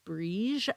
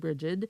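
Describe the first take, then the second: First: The name is said differently from the American way. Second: The name is said the common American way. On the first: "I think it's pronounced Brige" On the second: "Americans often say Brigid"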